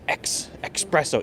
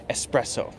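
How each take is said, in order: First: It begins with an 'ex' sound, like expresso. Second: It begins with an 'ess' sound, no k. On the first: The speaker calls it wrong. "you'll hear a lot of people say this incorrectly" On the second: The speaker calls it right. "It should be espresso"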